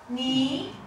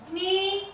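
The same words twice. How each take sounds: First: The pitch rises toward the end. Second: The pitch stays high and level. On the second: "the the first"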